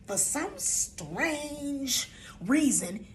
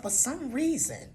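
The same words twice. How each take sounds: First: "strange" drawn out long and higher; very slow, lingering "strange"; stress on strange. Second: Said in the usual way. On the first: Real, not acted. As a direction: stretch the word "strange" right out. Repeats phrase, stretching the added word.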